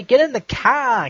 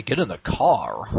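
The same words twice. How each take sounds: First: High, loud Australian "Get in the car" with "car" as /kæ/; Australian accent. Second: New Zealand "Get in the car" with a rolled-off /ɹ/ in "car"; a lightly done Kiwi accent. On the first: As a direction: sound like an Australian. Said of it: "Australians say". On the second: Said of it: "Kiwis say". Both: Shown as a demonstration.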